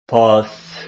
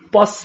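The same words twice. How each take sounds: First: The first consonant is soft and lax. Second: The first consonant is strong and tense. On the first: "we write it" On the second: "we pronounce it stronger"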